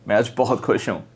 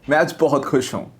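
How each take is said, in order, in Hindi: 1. इसे धीरे से बोला गया है, फिर भी भाव के साथ। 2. यह खुशी भरे भाव के साथ बोला गया है। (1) "धीरे भी बोला तो भी इमोशन आया" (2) "मैं खुश था तो एक्सप्रेशन आया।"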